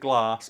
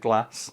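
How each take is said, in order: First: The A vowel is long, as in 'father'. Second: The A vowel is short, as in 'cat'. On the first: "a long" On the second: "a short A"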